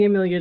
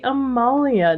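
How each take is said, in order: First: The second vowel sounds like 'ee'. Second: The second vowel sounds like 'ah'. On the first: The speaker calls it wrong. "It is not the Amelia jacket" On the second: The speaker calls it right. "it is the Amalia jacket"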